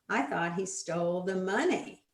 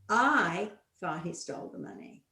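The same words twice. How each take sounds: First: The stress falls on the word "money". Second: The stress falls on the word "I". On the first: It was the money that was taken, not something else. "Oh, he didn't steal my umbrella. He stole my money" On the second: The speaker believed it, but nobody else did. "I did, but nobody else did"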